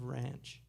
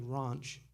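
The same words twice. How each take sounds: First: It is said in an American accent. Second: It is said in a South African accent. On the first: "instead of ranch" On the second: "say things like ranch"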